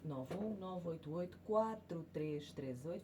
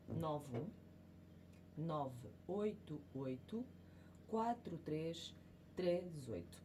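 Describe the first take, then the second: First: The number is said at normal, faster speed. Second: The number is said more slowly.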